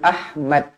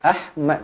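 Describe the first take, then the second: No difference in how they are said.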